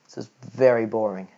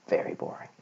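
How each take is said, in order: First: Said in the usual way. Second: Breathy whispered repeat, much softer; whispered aside. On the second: Real, not acted. Repeating to the viewer that maths bores him, whispered. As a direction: whisper it to yourself.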